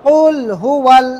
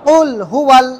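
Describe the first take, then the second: Both takes have the same delivery.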